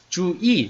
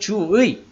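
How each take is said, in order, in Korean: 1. 두 번째 음절의 모음은 'i'예요. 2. 두 번째 음절의 모음은 'ui'예요. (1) "이로 발음하는 것도 허용한다" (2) "의로 발음하는 것이 원칙이에요"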